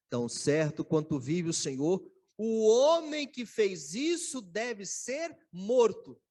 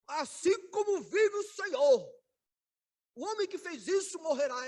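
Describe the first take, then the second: First: Loud indignant oath, last line slowed right down; nervous angry oath. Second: Solemn furious oath. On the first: Preacher voicing David condemning the guilty man, loud and indignant. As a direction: thunder out the verdict in outrage. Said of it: "ficou muito nervoso e falou assim". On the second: Preacher replaying David's self-condemning oath, loud and high. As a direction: declare the death sentence with full force. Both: Retold or imitated.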